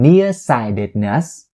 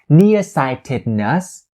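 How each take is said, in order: First: The T in 'sightedness' is a flapped D. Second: The T in 'sightedness' is a clear T. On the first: The speaker calls it right. "you turn it into the flat D sound" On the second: The speaker calls it wrong. "You don't say ... nearsightedness"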